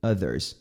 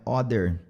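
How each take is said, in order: First: OTHERS starting with a short "uh"; correct pronunciation. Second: OTHER starting with an open "aw"; wrong pronunciation. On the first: Teacher corrects the learners' mistake, short "uh" vowel. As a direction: open "Others" on "uh", not "aw". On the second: Teacher shows learners the mistake, "aw" vowel. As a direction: say "other" as "awther". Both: Shown as a demonstration. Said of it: "Não é other".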